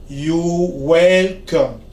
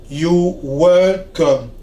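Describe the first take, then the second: The two takes are said the same way.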